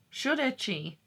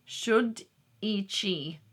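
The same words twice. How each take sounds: First: "Should ichi" said again at normal speed, pitched higher; a second, surer take of "Should ichi"; confident retry. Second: "Should ichi" slowly and carefully spelled out aloud; slow sounding out. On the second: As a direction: read the Welsh "Should ichi" syllable by syllable, slowly. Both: Shown as a demonstration. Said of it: "How are you?".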